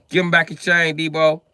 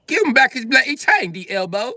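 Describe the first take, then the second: First: Loud, high demand; raised-voice demand. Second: Put-on very high, loud British accent; British demand. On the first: Acted. Bystander telling Debo to return the chain, raised voice. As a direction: call the bully out loudly. Acted movie line, American version. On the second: British bystander demanding the chain back, high British accent. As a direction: squawk it as an indignant Briton. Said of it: "Oh, he's British".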